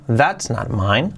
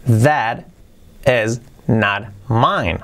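First: THAT'S run together as one syllable; forma contraída. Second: THAT IS as two separate words, very slowly; slow word-by-word model, IS said in full; sin contraer. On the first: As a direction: join THAT and IS into THAT'S, still measured. (THAT'S contraído, en una sola sílaba) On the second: (THAT IS completo, despacio y separado) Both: Shown as a demonstration. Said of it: "O contraído".

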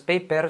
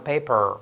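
First: "paper" with a light Spanish final R. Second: "paper" with a heavy American R, falling; exaggerated English R. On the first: Teacher shows the mistake, Spanish R in "paper". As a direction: say "paper" as "peiper", unexaggerated. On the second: Teacher gives the correction, potent R in "paper". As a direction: overdo the final R of "paper". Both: Shown as a demonstration. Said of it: "exagerarlas un poco".

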